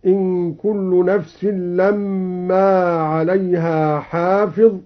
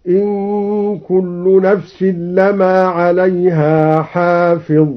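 First: Said in the usual way. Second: لما said as lama with a single, unstressed meem, slow recitation; light meem in lamma. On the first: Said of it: "بتخفيف الميم". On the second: Shown as a demonstration. Teacher demonstrates al-Duri's reading with a light meem, slow recitation. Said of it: "هكذا".

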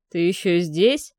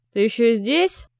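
First: Slow, assured, louder question; calm threat of a man in control; confident. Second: Menacing question, rising at the end; threatening cripple. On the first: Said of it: "уверенный голос хозяина дома". (уверенный, медленный голос) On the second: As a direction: drive him out with a threat. Калека гонит Марка ружьём. (угрожающий вопрос) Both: A narrator's reading.

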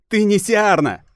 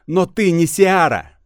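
First: High, loud defiant cry; defiant shout. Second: High, loud and slow defiance; defiant. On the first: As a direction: hurl the denial at her. Priestess defies goddess. (дерзкий выкрик) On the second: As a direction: throw the denial back at her. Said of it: "чуть ли не дерзко". (дерзко, с вызовом) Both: Acted.

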